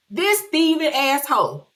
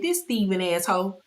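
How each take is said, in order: First: Higher, louder repeat of the insult. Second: Said in the usual way. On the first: Retold or imitated. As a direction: say it again with more heat. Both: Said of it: "I said".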